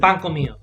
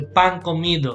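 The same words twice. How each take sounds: First: Some sounds in the phrase are dropped. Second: Every sound in the phrase is fully pronounced. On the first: The speaker calls it right. "we kind of use the relaxed pronunciation. So you're gonna notice that we drop letters" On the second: The speaker calls it wrong. "what sounds unnatural to say pan comido"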